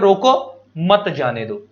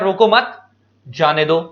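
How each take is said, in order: First: There is a pause after the first word. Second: There is a pause after the second word. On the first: Stop them; do not let them go. "अगर मैंने रोको के बाद coma लगाया" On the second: Do not stop them; let them go. "अगर मैंने रोको मत के बाद कोमा लगाया"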